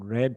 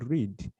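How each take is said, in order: First: The vowel is a short eh sound. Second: The vowel is a long ee sound. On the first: It is the past form of the verb. "someone read something yesterday ... So red also is red, the color" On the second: It is the present form of the verb. "to read"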